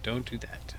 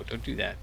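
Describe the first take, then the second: First: Whispered, repeating the warning. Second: Said in the usual way. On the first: Real, not acted. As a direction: breathe don't do that as a whisper. Repeats warning under his breath.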